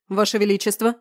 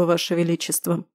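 First: Alarmed, rising call to the king; alarmed cry. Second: Dull reluctant mutter; muffled, forced out. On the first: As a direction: rush out the words in alarm. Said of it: "кинулся к нему Айс". (встревоженный возглас) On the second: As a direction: squeeze it out flatly, unwilling. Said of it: "глухо выдавил из себя". (глухо, через силу) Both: A narrator's reading.

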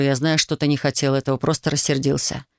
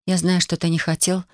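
First: Said in the usual way. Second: Sighing reluctant echo. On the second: A narrator's reading. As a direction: repeat his words on a tired sigh. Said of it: "со вздохом повторила она".

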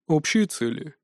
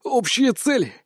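First: Said in the usual way. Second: «Общие цели» thrown back high and incredulous; mocking echo. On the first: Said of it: "спокойно ответил Анубис". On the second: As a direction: scoff at his words.

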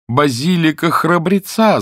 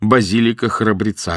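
First: High, slow narrated exclamation; crying out. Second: Said in the usual way. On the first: A narrator's reading. Porter tries his answer on the woman, crying out. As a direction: call it out higher, drawn out, short of a full yell. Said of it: "закричал носильщик". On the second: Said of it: "ответил носильщик".

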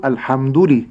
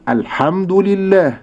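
First: الحمد لي run together without separation; words joined. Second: الحمد لله with a clear break between dal and lam; words separated. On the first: Sheikh imitating the wrong merging. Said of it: "لا أقول". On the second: Sheikh modelling the correct separation. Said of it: "ولكن أقول". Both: Shown as a demonstration.

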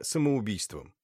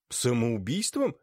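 First: Said in the usual way. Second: Slow, amazed самоубийством?; astonished. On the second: A narrator's reading. Tuchin echoes the baron's verdict, mildly astonished. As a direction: echo самоубийством in disbelief. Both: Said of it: "изумился Тучин".

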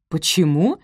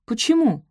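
First: Echoed question. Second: High, quick puzzled why; puzzled question. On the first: Benedict echoing Sophie's question, asking back. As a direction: repeat the question back to her. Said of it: "переспросил он". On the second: Sophie questions the hasty wedding, puzzled. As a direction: ask it in Sophie's higher voice. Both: A narrator's reading.

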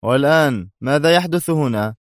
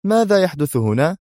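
First: Raised, demanding question; exclaiming. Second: Voiced high, calling out a sharp question; shout. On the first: The lieutenant grabs the gun and demands what's happening, exclaiming. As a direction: demand an answer, exasperated. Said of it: "وهو يهتف". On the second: Someone bursts in demanding what's going on, shouting. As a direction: call out to the room, startled. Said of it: "هتف أحدهم". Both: A narrator's reading.

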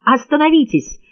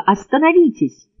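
First: High, urgent stop command; man begging a woman to stop, shouting; shouted plea. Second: High, pleading second stop; man begging a woman to stop, shouting; shouted plea. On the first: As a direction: yell at her to stop. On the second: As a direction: beg her once more, yelling. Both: A narrator's reading. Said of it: "крикнул он".

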